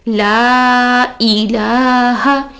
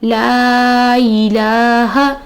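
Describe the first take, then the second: First: A clear glottal catch separates 'la' from 'i'. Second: The 'la' runs straight into 'i' without a break. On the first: The speaker calls it right. "ई को अलग पढ़ना चाहिए" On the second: The speaker calls it wrong. "हम क्या पढ़ रहे हैं, लाई, लाई वर्ड नहीं है"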